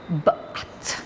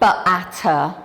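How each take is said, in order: First: Each consonant sound is short, with no extra vowel. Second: Each consonant sound carries an extra uh vowel. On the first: The blended sounds practically give the word. The speaker calls it right. "you're practically giving the children the word" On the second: The blended sounds do not make the word. The speaker calls it wrong. "it doesn't sound like bat"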